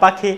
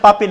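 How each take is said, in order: First: The middle consonant is an aspirated k sound. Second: The middle consonant is a plain p sound. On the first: The speaker calls it right. "না পাখি" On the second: The speaker calls it wrong. "এইভাবে বলেছে পাপি"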